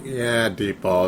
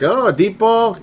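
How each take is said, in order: First: Low, slow deadpan answer; flat resignation. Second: High mock-surprised question; a touch of disbelief, pitched high; mock surprise. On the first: Retold or imitated. Fan answering his own question, slow resigned deadpan. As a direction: let it drop, slow and quiet. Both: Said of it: "It's like".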